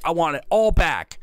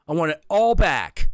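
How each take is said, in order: First: High, firm demand. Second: Higher and louder, pressing harder; louder demand. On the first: Little Viking demanding his things back, high and firm. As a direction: say it once, firmly. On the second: Little Viking insisting to the innkeeper, louder the second time. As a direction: repeat it with more force. Kid demanding his things. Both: Acted.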